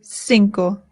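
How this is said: It is said with a Latin American accent. "In Latin America, they say cinco"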